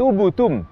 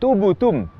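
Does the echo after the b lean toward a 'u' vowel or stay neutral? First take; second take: u vowel; u vowel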